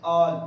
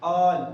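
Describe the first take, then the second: First: Said in the usual way. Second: All with its vowel pushed hard and loud; stressed all. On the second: Shown as a demonstration. Teacher shows students the pressure in all, loud and stressed. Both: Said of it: "इस पे भी आ रहा है दबाव".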